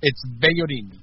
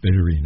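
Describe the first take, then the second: First: Bellorin with stress on the last syllable, "rin"; native Spanish pronunciation. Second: Bellorin repeated, stress moved to the last syllable "rin"; host carefully copying the Spanish stress on Bellorin. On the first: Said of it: "you say it for me again". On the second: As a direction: echo Bellorin back, trying the stress on "rin". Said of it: "I knew I had the wrong emphasis". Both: Shown as a demonstration.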